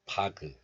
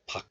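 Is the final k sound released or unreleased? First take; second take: released; unreleased. First: The final k is released with a vowel. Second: The final k is closed off, unreleased. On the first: The speaker calls it wrong. "You don't release the sound like 바그" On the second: The speaker calls it right. "Just 박. You have to close the syllable like a glottal stop"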